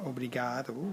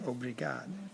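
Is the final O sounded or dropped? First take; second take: sounded; dropped. First: The final O is clearly sounded. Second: The final O is dropped. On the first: "instead of saying obrigado" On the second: "they say obrigado"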